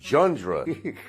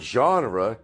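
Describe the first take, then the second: First: It is said with a 'jun-dra' sound. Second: It is said the standard way, as 'genre'. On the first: The speaker calls it wrong. "instead of jundra" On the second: The speaker calls it right. "the way it's supposed to be pronounced"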